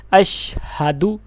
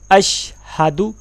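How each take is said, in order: The two takes are said the same way.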